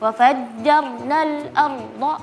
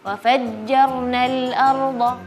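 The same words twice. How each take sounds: First: It is said in choppy, broken-up pieces. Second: It is said smoothly without breaks. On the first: The speaker calls it wrong. "seperti misalnya tadi" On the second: The speaker calls it right. "lebih lebih soft lagi"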